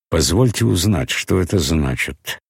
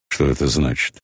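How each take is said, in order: First: С напускным спокойствием, сдерживая гнев; скрывает негодование за холодной вежливостью; притворное хладнокровие. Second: Сердито. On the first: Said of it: "с притворным хладнокровием". (притворно хладнокровно) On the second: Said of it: "спросил он сердито". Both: A narrator's reading.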